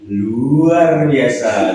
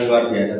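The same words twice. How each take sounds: First: It is said loudly, with enthusiasm. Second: It is said flatly, without energy.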